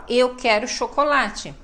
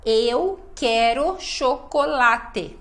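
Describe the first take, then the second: First: Said in the usual way. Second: Slow, syllable-by-syllable "Eu quero chocolate"; every syllable pronounced. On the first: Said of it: "não falam assim tudo certinho". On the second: Shown as a demonstration. Teacher showing the syllabic rhythm of Portuguese, every syllable pronounced. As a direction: give each syllable of "Eu quero chocolate" its full beat. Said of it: "a gente fala cada sílaba".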